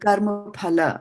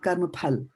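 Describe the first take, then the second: First: The word ends with a final 'a' vowel. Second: The word ends on the consonant, no vowel. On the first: The speaker calls it right. "There's a A over here" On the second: The speaker calls it wrong. "not karma phal"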